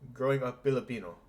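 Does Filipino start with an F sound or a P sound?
P. Filipino starts with a P sound instead. "if you have the accent"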